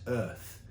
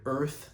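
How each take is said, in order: First: "earth" in refined British English, the r dropped; fine British accent. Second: Said in the usual way. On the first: Shown as a demonstration. Poet showing singers a vowel trick, fine British accent on "earth". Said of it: "a very fine British accent".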